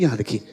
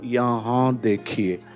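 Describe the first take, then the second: First: It is said at normal speed. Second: It is said very slowly.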